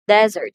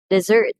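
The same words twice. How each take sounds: First: DE-zert, "desert" loud on the first syllable; noun stress. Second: De-ZERT, "Dessert" loud on the second syllable; verb stress. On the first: Teacher gives a noun example, "desert" stressed on first syllable. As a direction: punch the opening of "desert". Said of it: "the first syllable". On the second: Teacher gives a verb example, "Dessert" stressed on second syllable. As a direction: hit the end of "Dessert" hard. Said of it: "second syllable receives the emphasis". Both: Shown as a demonstration.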